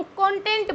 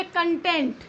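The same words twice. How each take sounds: First: कंटेंट said CON-tent, first syllable stressed; CONTENT as material. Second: कंटेंट said kun-TENT, reduced first vowel; content meaning satisfied. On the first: Teacher naming study material for learners, कंटेंट as CON-tent. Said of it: "उसको हम कंटेंट बोलेंगे". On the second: Teacher contrasting satisfied with material, कंटेंट as kun-TENT. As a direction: weaken the first syllable of कंटेंट, land on TENT. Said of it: "लेकिन कंटेंट हम क्या बोलेंगे". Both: Shown as a demonstration.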